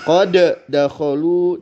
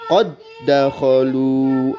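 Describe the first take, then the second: First: The first dal is released separately with a bounce. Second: The first dal merges into a doubled dal. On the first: The speaker calls it wrong. "tidak dibaca demikian" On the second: The speaker calls it right. "diberi tanda tasydid sehingga dibaca"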